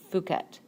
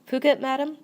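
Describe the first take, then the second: First: Said in the usual way. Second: High, loud echo of Phuket, rising; surprised question. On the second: A narrator's reading. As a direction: query the destination in surprise. Maid echoes it as a question.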